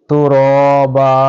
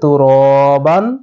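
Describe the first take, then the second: First: The word ends with a long 'a' sound. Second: The word ends with an 'an' sound. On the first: The reader stops on this word. "তো র বা এক আলিফ টেনে পড়ব" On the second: The reader keeps going without stopping. "যদি আমরা না থামি তাহলে কি হবে?"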